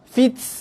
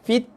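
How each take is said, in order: First: The final t ends with a strong hissing breath. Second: The final t ends with a very slight breath. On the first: The speaker calls it wrong. "itu bacaan yang salah" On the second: The speaker calls it right. "keluar angin sikit"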